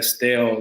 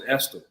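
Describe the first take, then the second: First: The town name is said the outsider way. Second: The town name is said the local way. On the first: This is how most other people say it. "Estelle is mostly what most people say" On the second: This is how people from the town say it. "we pronounce it Estill"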